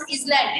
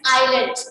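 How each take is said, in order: First: The S sound is pronounced in the word. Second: The S sound is silent in the word. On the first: The speaker calls it wrong. "we will not pronounce island" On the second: The speaker calls it right. "It's island. Why? Because island S is silent"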